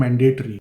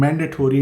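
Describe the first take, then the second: First: "mandatory" as man-DAY-tree; old Indian pronunciation. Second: "mandatory" ending in a full "tory"; adopted Canadian pronunciation. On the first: Showing the habit being replaced, "mandatory" as man-DAY-tree. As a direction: say "mandatory" with "day" in the middle and a short ending. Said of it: "instead of mandatory". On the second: Showing what newcomers will start saying, "mandatory" with a full -tory ending. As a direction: say "mandatory" as MAN-duh-tory. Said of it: "you will also start saying". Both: Shown as a demonstration.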